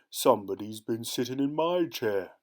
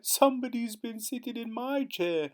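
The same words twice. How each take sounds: First: The voice is deep and gruff. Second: The voice is high and squeaky. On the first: "in his deep, gruff voice" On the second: "in his squeaky little voice"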